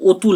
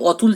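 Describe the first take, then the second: First: অতুল starting on rounded "oh"; vowel shifted to O. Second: অতুল starting on open "aw"; open first vowel. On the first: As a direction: say অতুল as "oh-tul". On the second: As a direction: say অতুল as "aw-tul". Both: Shown as a demonstration. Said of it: "অটা change হয়ে ও".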